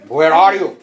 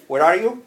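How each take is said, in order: First: Louder, pushed 'Where are you?'; louder, sharper version of 'Where are you?'; harsher, louder take. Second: Nice voice. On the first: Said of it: "you can tone your voice". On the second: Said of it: "you can tone your voice to a nice voice". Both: Shown as a demonstration.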